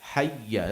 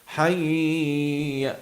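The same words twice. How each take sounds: First: The vowel is kept short, two beats only. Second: The vowel is drawn out well beyond two beats. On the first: The speaker calls it right. "just two haraka" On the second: The speaker calls it wrong. "don't don't do like hayya"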